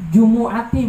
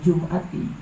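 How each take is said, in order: First: A short u vowel follows the m sound. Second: The m runs straight into the glottal stop. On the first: The speaker calls it right. "Jumu'ati bacanya" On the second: The speaker calls it wrong. "jangan Jum'ati"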